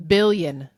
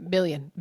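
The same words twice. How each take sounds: First: Billion. punched, louder, with a falling end; louder emphatic billion. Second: Said in the usual way. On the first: Shown as a demonstration. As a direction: hit Billion. hard, like a capital B. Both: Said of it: "Billion with a capital B".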